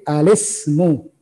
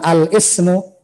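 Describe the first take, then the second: First: The lam runs straight into the s sound. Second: A glottal break separates al from ismu. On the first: The speaker calls it right. "tapi al-ismu ... lam langsung ke sin" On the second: The speaker calls it wrong. "Bukan al-ismu"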